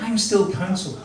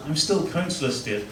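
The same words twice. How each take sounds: First: Self-reassuring. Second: Softer, deflated self-reassurance; convincing himself quietly. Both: Retold or imitated. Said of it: "I was trying to deal with it".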